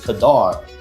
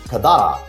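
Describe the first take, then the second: First: It ends on the consonant with no final vowel. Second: It ends with a final vowel after the consonant. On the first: "they say it's Kadar" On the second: "not Kadara"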